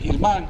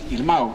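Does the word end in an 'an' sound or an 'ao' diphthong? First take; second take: an sound; ao diphthong. First: The word ends in an 'an' sound. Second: The word ends in an 'ao' diphthong. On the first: This is how it is said in Pontevedra. "a miña nai é de Pontevedra, e di Irmán" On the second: This is how it is said in Lugo. "meu pai é de Lugo, entón di Irmao"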